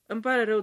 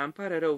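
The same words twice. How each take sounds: First: Higher, louder hasty sorry; urgent apology. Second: Said in the usual way. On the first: Acted. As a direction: blurt the apology out quickly. Husband apologizing at locked door. (scuze grăbite, mai sus și mai tare)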